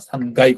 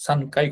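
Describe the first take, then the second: First: "সানগাই" with g, san-gai; voiced G form. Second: "সানকাই" with a hard k, san-kai; unvoiced K form. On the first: Teacher showing how third floor is said, "সানগাই" with g. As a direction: soften k into g in "সানগাই". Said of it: "সানগাই কথাটা বলি". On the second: Teacher showing the form not used for third floor, "সানকাই" with k. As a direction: keep the k sharp in "সানকাই". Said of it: "সানকাই কথাটা বলি না". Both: Shown as a demonstration.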